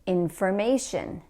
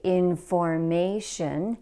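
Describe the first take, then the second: First: The third syllable is said higher and stronger. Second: All syllables are said evenly, without stress. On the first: The speaker calls it right. "We should say it like this" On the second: The speaker calls it wrong. "that does not have word stress"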